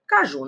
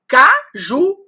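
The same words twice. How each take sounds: First: Said in the usual way. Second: "Caju" split in two, ca, ju, high and loud; syllable by syllable. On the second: Shown as a demonstration. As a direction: punch out each syllable of "Caju" separately. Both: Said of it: "esse u tá formando uma sílaba com J".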